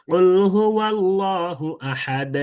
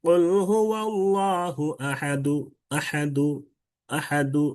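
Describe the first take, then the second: First: Slow chant stopping dead on the d of "আহাদ"; drawn-out recitation, "আহাদ" closed on a bare consonant; sakin stop. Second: Slow chant with a light short u closing "আহাদু"; drawn-out recitation, "আহাদু" ending on a slight "du"; rawm ending. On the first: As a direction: chant it slowly and end "আহাদ" with no vowel after the d. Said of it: "এটা হচ্ছে সাকিনের উদাহরণ". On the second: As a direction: chant it, then lightly release the d of "আহাদু" into a faint u. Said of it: "কিন্তু রুম করলে কি হবে?". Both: Shown as a demonstration.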